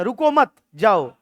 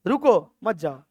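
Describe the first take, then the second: First: रुको मत run together slowly, break, then जाओ; comma after मत. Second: रुको alone, break, then lower मत जाओ; comma after रुको. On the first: Teacher shows the comma's effect, breaking after मत before जाओ. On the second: Teacher shows the comma's effect, breaking after रुको before मत जाओ. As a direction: stop after रुको, keep मत जाओ together. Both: Shown as a demonstration. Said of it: "एक comma आपको".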